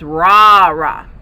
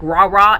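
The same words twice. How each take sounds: First: The first vowel is drawn out long. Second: The first vowel is short. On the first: The speaker calls it right. "you draw out the first day" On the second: The speaker calls it wrong. "isn't like rah rah"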